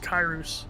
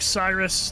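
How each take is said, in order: First: The name begins with a hard k sound. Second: The name begins with a soft s sound. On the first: The original ancient pronunciation. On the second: The usual modern pronunciation.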